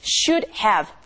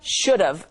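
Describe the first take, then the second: First: Both words are said fully and separately. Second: It is said quickly, reduced to should've.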